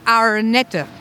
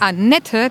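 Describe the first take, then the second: First: It is said in Herborn dialect. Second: It is said in standard German.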